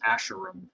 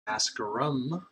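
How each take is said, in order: First: The first syllable sounds like 'ash'. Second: The first syllable does not sound like 'ash'.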